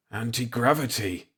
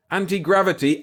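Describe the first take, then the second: First: Hoarse, barely voiced croak. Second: Anti-gravity shouted high and loud; excited shout. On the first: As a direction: croak it out in shock. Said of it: "I croaked". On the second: Acted. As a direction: call out anti-gravity in thrilled disbelief. Calls out discovery excitedly.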